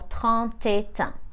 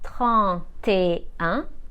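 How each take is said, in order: First: The t of et links into un. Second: The t of et stays silent before un. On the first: The speaker calls it wrong. "we don't say" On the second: The speaker calls it right. "So let's pronounce them again"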